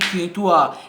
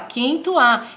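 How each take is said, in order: First: The voice is pitched low. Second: The voice is pitched in the middle.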